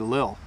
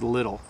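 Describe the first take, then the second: First: The middle sound is dropped entirely. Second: The middle sound is a soft D. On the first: It is a very fast, informal way. "we even say it faster. Sometimes we say lil" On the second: It is the usual everyday way. "the T T sound in the word little, we often say as little"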